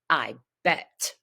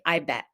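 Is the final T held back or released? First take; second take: released; held. First: The final T is released with a puff. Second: The final T is held without release. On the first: "I might pop the tea for a specific intonation or for a s- specific emotion" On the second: "stop the tea and just say"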